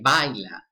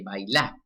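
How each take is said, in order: First: The stress is on the first syllable. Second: The stress is on the last syllable.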